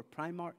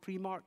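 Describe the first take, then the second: First: "Primark" said as PRY-mark; "Primark" starting like the word "pry"; alternative pronunciation. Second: "Primark" said as PREE-mark; "Primark" rhyming its start with "tree"; alternative pronunciation. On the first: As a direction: say "Primark" with a long I in the first syllable. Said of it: "or Primark here". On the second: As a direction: say "Primark" with an EE in the first syllable. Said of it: "Primark or Primark here". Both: Shown as a demonstration.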